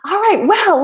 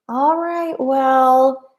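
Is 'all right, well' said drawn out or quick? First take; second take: quick; drawn out. First: The words are said quickly without dragging. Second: The words are stretched out with a dragging tune. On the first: The speaker is about to start something. "It's not like" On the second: The speaker is about to leave. "that kind of dragging intonation"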